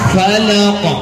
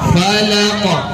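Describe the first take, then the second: First: The final consonant is released with a bounce. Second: The same.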